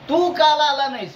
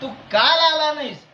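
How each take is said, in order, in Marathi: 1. जोर 'तू' या शब्दावर आहे. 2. जोर 'काल' या शब्दावर आहे. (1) "बाकी सगळे आले फक्त तू नाही आला" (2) "तू परवा दिवशी आलता पण काल नाही आला"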